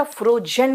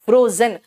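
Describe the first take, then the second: First: "फ्रोजन" mispronounced as fro-jen, with a J; wrong J sound. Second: "फ्रोजन" as fro-zen, with a buzzing Z; correct Z sound. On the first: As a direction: put a J in place of Z in "फ्रोजन". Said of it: "फ्रोजन मत बोल देना". ("फ्रोजन" में ज़ की जगह ज) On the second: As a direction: model "फ्रोजन" with a clear Z, not J. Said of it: "जा अलग है और ज अलग है". ("फ्रोजन" में ज़ की साफ़ आवाज़) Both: Shown as a demonstration.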